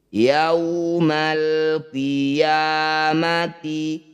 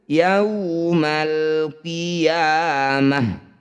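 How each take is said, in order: First: It ends with a t sound and a vowel. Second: It ends with a soft h sound. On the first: The recitation continues without stopping. "Ketika posisi hidup dia jadi huruf tak" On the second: The recitation stops at this word. "Ketika dihentikan"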